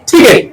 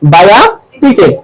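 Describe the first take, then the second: First: The first t is aspirated. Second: The first t is unaspirated. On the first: The speaker calls it right. "Aspirated হয়। ... ঠ হয়ে যাবে।" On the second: The speaker calls it wrong. "আমি কি ঠিক বলছি?"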